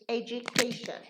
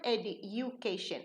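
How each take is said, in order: First: A 'j' sound comes before the 'u'. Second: A plain 'd' sound comes before the 'u'. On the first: The speaker calls it right. "the D changes into J" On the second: The speaker calls it wrong. "It's not education"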